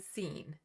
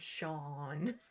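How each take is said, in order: First: The name starts with an 's' sound. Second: The name starts with an 'sh' sound. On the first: The speaker calls it wrong. "I always say Scene" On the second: The speaker calls it right. "how does that sound, Sean?"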